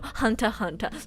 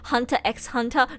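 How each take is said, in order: First: The letter X is left out between the words. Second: The letter X is spoken between the words. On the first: The speaker calls it right. "you're not supposed to pronounce it" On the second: The speaker calls it wrong. "Usually when there's an x in the middle, you're not supposed to pronounce it"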